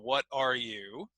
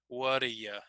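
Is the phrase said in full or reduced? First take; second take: full; reduced. First: Each word is said fully and separately. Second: It is run together with weak schwa vowels.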